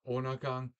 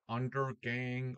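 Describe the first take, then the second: First: The middle consonants are dropped or softened. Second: The middle consonants are clearly sounded. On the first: The speaker calls it right. "Because in Danish we don't like consonants" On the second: The speaker calls it wrong. "not Undergang or whatever"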